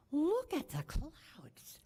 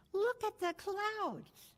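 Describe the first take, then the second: First: Breathless whispered wonder, slow; hushed and slow, spellbound by the storm; awed call. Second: Much higher, slow thrilled call; excited yell. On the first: Boy whispers in wonder at approaching storm clouds. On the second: Eight-year-old calls out to family about the storm, high and thrilled. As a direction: cry it out high, captivated by the sky. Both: Retold or imitated. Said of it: "he yells out".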